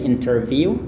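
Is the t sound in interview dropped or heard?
heard. The t sound after the n is pronounced. "orang Inggris dan uh, aksen internasional, mereka biasanya lafalkan T-nya"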